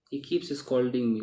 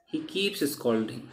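First: Spelled out slowly for learners; slow model sentence. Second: Slow model sentence. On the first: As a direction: say it slowly, stressing keeps. (धीमे से पढ़ा गया उदाहरण) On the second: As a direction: read out slowly, word by word. (धीमे-धीमे बोला गया उदाहरण वाक्य) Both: Shown as a demonstration. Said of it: "कई बार on नहीं भी लगता है".

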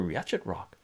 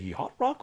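First: "yachet" in two syllables with CH sounded; spelling pronunciation. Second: "yacht" as one syllable, rhyming with "hot"; standard pronunciation. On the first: Streamer offering two options, "yachet" with CH sounded. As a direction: say "yachet" as spelt, CH as in "chat". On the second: Streamer offering two options, "yacht" with silent CH. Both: Shown as a demonstration. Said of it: "am I pronouncing this right?".

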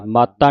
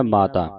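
First: ਮਾਤਾ with a hard held t, "maat-taa"; mistaken reading. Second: ਮਾਤਾ with a light single t, low and soft; corrected reading. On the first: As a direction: double the t in ਮਾਤਾ. (ਮਾਤਾ ਦਾ ਤੱਤਾ ਦਬਾ ਕੇ) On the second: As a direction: say ਮਾਤਾ as "maa-taa", falling. (ਮਾਤਾ ਹਲਕੇ ਤੱਤੇ ਨਾਲ, ਨੀਵੀਂ ਆਵਾਜ਼ ਵਿੱਚ) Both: Shown as a demonstration. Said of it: "ਮਾਤਾ ਨਹੀਂ ਕਹਿਣਾ".

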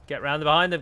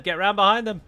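First: Said in the usual way. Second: Urgent louder order. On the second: Real, not acted. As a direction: shout the order louder the second time.

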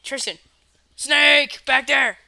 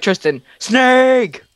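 First: Sudden high warning shout; louder, higher, pretend alarm; fake alarm shout. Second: Prank scare shout. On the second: Shown as a demonstration. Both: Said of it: "Dylan, just be like".

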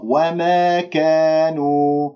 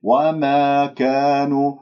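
First: وما كانوا said "wa-meh keh-nu"; faulty fronted alifs, drawn out; tilted alif, wrong. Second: وما كانوا with open "maa kaa"; correct, level vowels in وما كانوا; untilted alif. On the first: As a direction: bend both long vowels of وما كانوا toward e. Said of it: "صوت حقيقة غير مستساغ". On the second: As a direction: recite وما كانوا slowly with pure long aa. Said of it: "لأنه أمال الألف". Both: Shown as a demonstration.

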